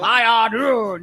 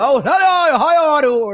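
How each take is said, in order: First: Trying out the show voice; slow DJ voice. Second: Loud, booming radio host greeting; put-on DJ voice. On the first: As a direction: lean into each word like a radio host. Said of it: "that's what I'm gonna sound like". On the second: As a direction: project it like you own the mic. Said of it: "That's not what she sound like". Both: Shown as a demonstration.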